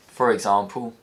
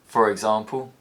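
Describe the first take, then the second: No difference in how they are said.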